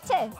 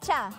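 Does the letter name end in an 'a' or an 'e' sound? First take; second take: e; a. First: The letter name ends in an 'e' sound. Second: The letter name ends in an 'a' sound. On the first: The speaker calls it wrong. "no sería che" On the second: The speaker calls it right. "sería cha"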